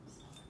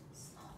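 The two takes are said the same way.

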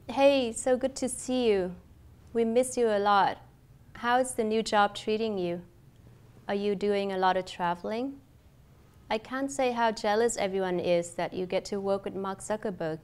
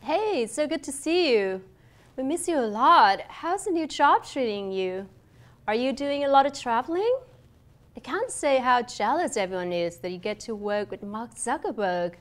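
First: Level, even tune with little rise or fall; without intonation. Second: Animated, expressive greeting with varied pitch; with intonation. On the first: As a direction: read it evenly, no melody on "Hey" or "jealous". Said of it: "cách không có ngữ điệu". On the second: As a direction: hit "lot" and "job" hard, big rises and falls. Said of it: "và có ngữ điệu". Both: Shown as a demonstration.

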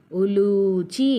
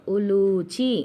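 First: ఉలూచి slowly, with a drawn-out లూ; long ఊ in ఉలూచి. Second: Said in the usual way. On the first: Shown as a demonstration. Teacher showing pupils how to stretch the లూ in ఉలూచి. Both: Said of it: "దీర్ఘంగా పలకాలి".

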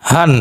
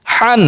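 First: হান with a light, unpressed হ. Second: Higher হান with a tight, pressed হ; pressed throat H. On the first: Teacher drilling two H sounds, light হান. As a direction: let হান start on an easy open breath. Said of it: "আর একটা হালকা normal উচ্চারণ". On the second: Teacher drilling two H sounds, throat-pressed হান. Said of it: "চেপে উচ্চারণ করতে হবে গলার মধ্যে". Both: Shown as a demonstration.

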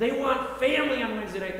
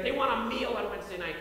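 First: FAMILY lifted higher and louder; stress on family. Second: WANT leaned on, then a falling finish; stress on want. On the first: Preacher to congregation, punching family. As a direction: lean hard on the word family. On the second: Preacher to congregation, stressing want. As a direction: press the word want, then let the line drop. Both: Shown as a demonstration.

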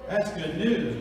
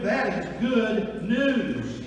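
First: Said in the usual way. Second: "That is good news" slowed, every word weighted; stressed good news. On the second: Shown as a demonstration. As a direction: lean hard on "good news". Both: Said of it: "We say it's good news".

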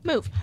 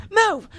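First: Said in the usual way. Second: Louder, higher impatient command; raised-voice order. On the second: Acted. Ordering someone out of the way, loud and impatient. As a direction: call it out sharply.

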